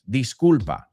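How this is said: It sounds sincere and apologetic. The speaker is genuinely apologizing. "Or it can also mean sincerely"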